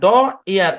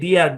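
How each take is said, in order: First: The d sound is separated from the vowel. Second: The d sound blends straight into the vowel. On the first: The speaker calls it wrong. "এরকম কিন্তু না" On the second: The speaker calls it right. "এই শব্দের উচ্চারণ হচ্ছে ডিয়ার"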